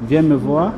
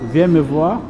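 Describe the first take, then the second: No difference in how they are said.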